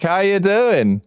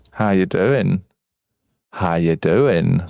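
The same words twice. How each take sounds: First: Said in the usual way. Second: Deep voice. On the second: Shown as a demonstration. Voice changer switched on.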